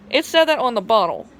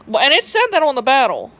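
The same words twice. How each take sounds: First: Said in the usual way. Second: "battle" said with a twangy short a, sounding like battle instead of bottle; Southern twang slip. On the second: Real, not acted. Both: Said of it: "sorry, that was my twang".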